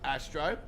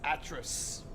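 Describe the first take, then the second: First: The name is said like 'Astro'. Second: The name is said like 'Atris'. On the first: The speaker calls it wrong. "I've been pronouncing it incorrect all this bloody time" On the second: The speaker calls it right. "but it actually is Atris"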